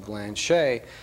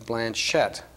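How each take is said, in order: First: The name is pronounced the French way. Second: The name is pronounced the English way. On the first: "the French pronunciation would be Blanchette" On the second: "but we now use Blanchette"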